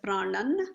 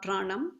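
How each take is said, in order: First: The word ends with an n sound. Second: The word ends with an m sound. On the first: The speaker calls it right. "we pronounce it as pranan" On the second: The speaker calls it wrong. "not pranam"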